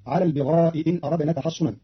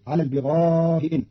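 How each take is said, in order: First: Said in the usual way. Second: البغاء إن with a softened first hamza and a four-count long vowel; Qalun reading. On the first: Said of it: "بتسهيل الهمزة الأولى". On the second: Shown as a demonstration. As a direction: ease the hamza of البغاء, hold the madd. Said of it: "بتسهيل الهمزة الأولى بين بين مع المد أربع حركات". (البغاء إن بتسهيل الهمزة)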